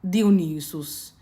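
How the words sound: The name is said with a classical Greek pronunciation. "In a classical Attic, it would be"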